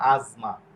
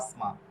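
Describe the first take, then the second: First: The middle consonant is a buzzing z sound. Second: The middle consonant is a hissing s sound. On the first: The speaker calls it right. "কিন্তু এটা হয়ে গেছে কি আজমা" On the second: The speaker calls it wrong. "বাংলাতে বা ইটালিয়ান ভাষায় এটা হয়ে যেত আসমা"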